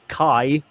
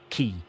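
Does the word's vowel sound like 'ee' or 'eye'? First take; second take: eye; ee. First: The vowel sounds like 'eye'. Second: The vowel sounds like 'ee'. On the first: "I pronounced it as Kai" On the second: "it can be pronounced as Ki as well"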